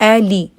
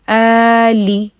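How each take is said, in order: First: Both vowels are kept short. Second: Both vowels are stretched out long. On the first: The speaker calls it right. "बिल्कुल दोनों को छोटा रखना है।" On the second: The speaker calls it wrong. "इन दोनों को आप लोगों ने लंबा नहीं खींचना। अ ली ये नहीं करना"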